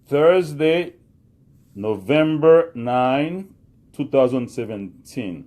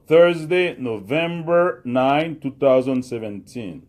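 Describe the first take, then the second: First: "November" stretched out slowly, louder; teacher repeating the date for the class, slow and clear; slow repetition. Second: "November" drawn out slowly, louder; teacher dictating the date for students, slow and loud; slow dictation. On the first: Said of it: "repete li". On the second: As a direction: read the date slowly for the class to copy. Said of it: "Again, nou di lankò, repete li". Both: Shown as a demonstration.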